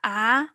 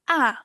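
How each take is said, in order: First: The syllable is said with the second tone. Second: The syllable is said with the fourth tone.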